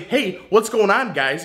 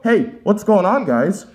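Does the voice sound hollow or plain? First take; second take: plain; hollow. First: The voice sounds plain and direct. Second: The voice sounds hollow, as through a tube. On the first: "in a normal voice" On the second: "I put this up to my mouth"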